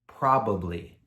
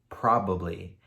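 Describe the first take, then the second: First: All syllables are said fully and clearly. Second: The same.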